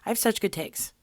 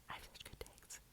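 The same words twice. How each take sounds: First: Said in the usual way. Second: Very soft whispered repeat. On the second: Real, not acted. Whispering her own brag back to herself. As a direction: whisper it to yourself.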